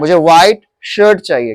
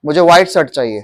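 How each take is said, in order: First: शर्ट with a clear SH; correct SH sound. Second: शर्ट said with S, as "sart"; wrong S sound. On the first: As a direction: model शर्ट with a hushing SH, not S. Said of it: "क्या बोलोगे इसको". (शर्ट को साफ़ 'श' से बोलें) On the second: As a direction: mispronounce शर्ट with S for SH. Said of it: "अरे शर्ट मत". (शर्ट को 'स' से, "सर्ट" जैसा बोलें) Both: Shown as a demonstration.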